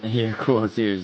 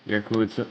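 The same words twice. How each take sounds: First: Laughing through it, slowly. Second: Said in the usual way. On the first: Real, not acted. Repeating the compliment to a friend, laughing. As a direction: chuckle the words out slowly. Laugh heard, slower retake.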